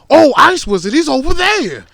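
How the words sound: It is said excitedly, with strong emphasis.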